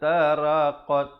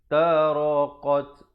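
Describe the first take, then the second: First: The r sound is light and thin. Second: The r sound is heavy and full. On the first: The speaker calls it wrong. "Jangan baca" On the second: The speaker calls it right. "bila baris di atas dibaca tebal"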